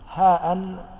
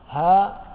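First: It ends with a glottal stop plus -in. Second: It ends on a long vowel, no glottal stop. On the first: "بالتنوين" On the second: "بدون الهمزة"

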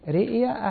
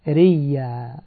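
First: The word has a glottal stop in the middle. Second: The word has no glottal stop in the middle.

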